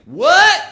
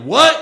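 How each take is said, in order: First: Very high, loud questioning yelp; cartoon hillbilly. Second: Short, loud, high retort. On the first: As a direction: fire it back as a hillbilly challenge. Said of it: "cartoon hillbilly". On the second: Acted. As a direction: shoot it back as a New York challenge. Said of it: "New York redneck".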